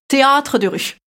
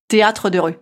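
First: THÉÂTRE drawn with a grand, high A; accent Aurillac exagéré. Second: Said in the usual way. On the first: Shown as a demonstration. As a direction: overdo the big A in "théâtre de rue". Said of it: "j'ai la version Aurillac". (« théâtre » avec un grand A appuyé) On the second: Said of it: "y a pas le grand A".

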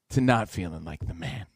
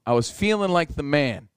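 First: Low, soft comic letdown; deflated. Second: Said in the usual way. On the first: Retold or imitated. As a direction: let it sink low and quiet, deflated. Contrast of confident with deflated.

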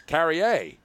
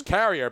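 First: "Carrier" said the French way, slowly, stress on the last syllable; slow French "Carrier" with a final "-ier" like "yay"; French pronunciation. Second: Said in the usual way. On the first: Shown as a demonstration. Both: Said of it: "but it's Carrier in French".

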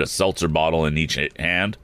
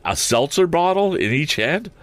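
First: Said in the usual way. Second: Incredulous, high rising question; baffled. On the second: Real, not acted. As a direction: repeat it in disbelief, voice climbing high. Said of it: "that's so weird".

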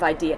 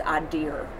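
First: Said in the usual way. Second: "I dear" with the stress up front and an r on the end; Houston pronunciation. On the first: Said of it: "instead of 'idea.'". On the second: Retold or imitated. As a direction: say "I dear" for idea, with a Houston accent. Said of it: "she even says".

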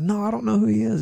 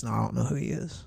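First: High-pitched, protesting denial; insistent denial. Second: Soft, quick brush-off; mild denial. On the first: Peter pressed again by bystanders, insistent denial. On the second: Peter to bystanders at Jesus' trial, mild denial. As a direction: deny it quietly, played down. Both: Retold or imitated.

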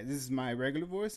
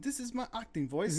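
First: Said in the usual way. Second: Higher-pitched mock British accent; imitated English accent, pitched up; put-on British acting voice. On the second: Shown as a demonstration. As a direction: switch into a posh British actor voice.

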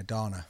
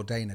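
First: "Dana" with an open ah in the first syllable; workmate's mispronunciation. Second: "Dana" with a long ay in the first syllable; correct name. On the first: Retold or imitated. Co-host quoting a workmate's mistake, "Dana" said DAH-nuh. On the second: Shown as a demonstration. Co-host recalling a workmate's mistake, "Dana" said properly as DAY-nuh. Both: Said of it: "he used to call Dana".

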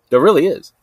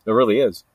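First: Emphatic second "There really is"; insistent repeat. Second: Said in the usual way. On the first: Real, not acted. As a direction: insist on it, hitting "really" hard.

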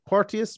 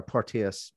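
First: Porteous with "tee-us", high and questioning; Porteous tried as por-TEE-us, pitched up; trying another pronunciation. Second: Porteous with "teh-us", falling; Porteous said as por-TEH-us, settling down; name said carefully. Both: Shown as a demonstration. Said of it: "that third name that he has there".

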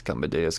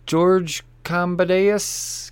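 First: Said in the usual way. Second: "George Cambadeus" stretched out slowly, syllable by syllable; "Cambadeus" savoured and drawn long; drawn-out name. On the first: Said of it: "I didn't do that last time". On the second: Shown as a demonstration. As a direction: linger over "Cambadeus" like announcing it. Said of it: "I didn't do that last time, did I?".

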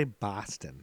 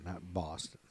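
First: Boston accent. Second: Said in the usual way. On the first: Shown as a demonstration. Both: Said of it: "I'd say Boston, not Boston".

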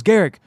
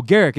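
First: Name echoed in a high imitated voice; Anderson Silva. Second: Said in the usual way. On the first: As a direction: repeat the name higher, as the famous fighter. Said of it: "And he goes". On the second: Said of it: "And I go".

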